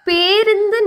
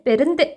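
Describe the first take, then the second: First: The first vowel is a long e. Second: The first vowel is a short e. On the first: The speaker calls it right. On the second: The speaker calls it wrong.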